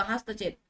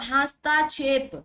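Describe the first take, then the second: First: हस्तक्षेप with a short त, low and soft; short middle vowel. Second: हस्ताक्षेप with a long, drawn ता; wrong long आ. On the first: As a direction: say हस्तक्षेप without lengthening the त. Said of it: "तो शुद्ध क्या होगा?". (हस्तक्षेप में छोटा त, धीमे स्वर में) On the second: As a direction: stretch the middle of हस्ताक्षेप on ता. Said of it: "अशुद्ध वर्तनी का चयन करें". (हस्ताक्षेप में ता को लंबा खींचकर) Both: Shown as a demonstration.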